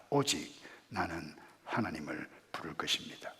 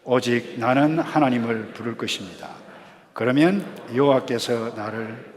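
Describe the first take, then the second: First: Low, very soft declaration; subdued, lowered voice of resolve; quiet verse reading. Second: Louder, firm verse reading; projected, deliberate group recitation. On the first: Acted. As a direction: say it hushed, nearly whispered. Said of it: "이렇게 말씀합니다". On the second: Shown as a demonstration. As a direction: read it aloud to lead a congregation. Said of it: "소리 내어서 읽도록 하겠습니다".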